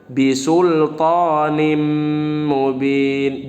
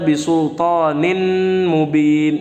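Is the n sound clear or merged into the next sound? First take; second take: merged; clear. First: The n sound merges into the following m. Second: The n sound is pronounced clearly before m. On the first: The speaker calls it right. "Yang benar bisultanim mubin" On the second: The speaker calls it wrong. "Jangan dibaca bisultanin mubin"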